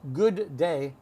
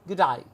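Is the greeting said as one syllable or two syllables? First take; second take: two syllables; one syllable. First: It is said as two full syllables. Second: It is squeezed into one syllable. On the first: The speaker calls it wrong. "Not good day" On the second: The speaker calls it right. "It's like one word or one syllable"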